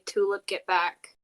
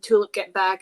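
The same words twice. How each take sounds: First: It is said at ordinary speaking volume. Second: It is screamed loudly. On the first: "she's going to say" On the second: "she's going to scream it more like she's going to just scream"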